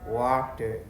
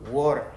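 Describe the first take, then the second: First: The middle consonant is a clear t sound. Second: The middle consonant sounds like a d. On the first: "on va lire ce mot-là ici" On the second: "Où il y a T et il prononce un peu comme D"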